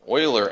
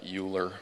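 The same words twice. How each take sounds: First: The word does not sound like 'nuclear'. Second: The word sounds like the ending of 'nuclear'. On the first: The speaker calls it right. "that's how you pronounce that" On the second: The speaker calls it wrong. "It's not Euler, like nuclear"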